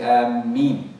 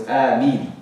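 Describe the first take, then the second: First: Ameen said with a doubled, stressed m, like am-MEEN; wrong stress on the m. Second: Ameen said with a long A and a short single m; correct pronunciation. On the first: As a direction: lean hard on the m of Ameen, shadda on the meme. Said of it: "a stress on the meme and they'll say Ameen". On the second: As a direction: draw out the A of Ameen, keep the m light and short. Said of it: "With the long A and then just short meme". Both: Shown as a demonstration.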